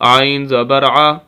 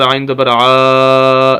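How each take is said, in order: First: The final vowel is kept short. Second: The final vowel is stretched out long. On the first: The speaker calls it right. "एक" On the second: The speaker calls it wrong. "खींचना नहीं, लंबा करके नहीं पढ़ना"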